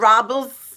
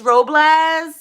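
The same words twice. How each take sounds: First: The first syllable sounds like the word 'rob'. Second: The first syllable does not sound like 'rob'. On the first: The speaker calls it wrong. "because it's like R O B, so it's pronounced like that" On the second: The speaker calls it right. "it's Robles, like the tree"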